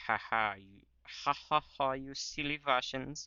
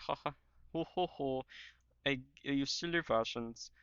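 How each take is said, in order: First: Higher-pitched mock German accent; hammed-up German taunting with mock laughter. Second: Badly faked Austrian, really a German accent; German accent attempting a rounder "ho ho"; mock Austrian taunt, higher than usual speech. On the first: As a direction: gloat in a put-on German accent. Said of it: "I'm just doing a German accent". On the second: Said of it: "doing a German accent, but, like, deeper".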